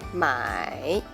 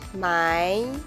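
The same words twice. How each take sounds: First: The pitch dips low, then rises. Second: The pitch rises from mid to high. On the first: "third tone" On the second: "I will pronounce the second tone first"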